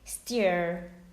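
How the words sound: It is said with an American accent. "But in American English, they say steer"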